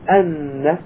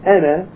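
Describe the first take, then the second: First: The n sound is doubled and held longer. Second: The n sound is short and single. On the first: The speaker calls it right. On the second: The speaker calls it wrong.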